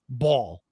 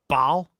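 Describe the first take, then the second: First: The word is said in a northeastern US accent. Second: The word is said in a non-northeastern accent. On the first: "I pronounce it a little different because I'm from the east northeast. I say ball" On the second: "some people say like ball"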